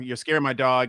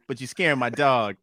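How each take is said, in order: First: It is said in his normal voice. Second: It is said in a put-on pimp voice.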